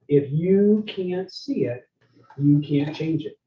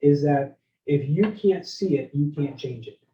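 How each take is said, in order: First: Slow, deliberate repeat; a maxim repeated slowly for note-taking; slow repeat for emphasis. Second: Said in the usual way. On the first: Shown as a demonstration. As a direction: lay out each word slowly so they write it down. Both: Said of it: "here's a writer downer".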